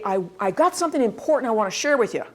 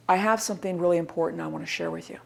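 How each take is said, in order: First: Eager, quick delivery; natural enthusiasm. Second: Low, soft, hurried and lifeless; unenthusiastic. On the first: Presenter with something important to share, naturally enthusiastic. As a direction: rush in keen to share it. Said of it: "the enthusiasm of naturally". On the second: Presenter sharing important news, without enthusiasm. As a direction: rattle it off with no enthusiasm. Contrast take to natural enthusiasm. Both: Shown as a demonstration.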